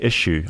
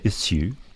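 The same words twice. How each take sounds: First: The middle consonant is a 'sh' sound. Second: The middle consonant is an 's' sound. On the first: The speaker calls it wrong. "I always say issue" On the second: The speaker calls it right. "I need to say issue"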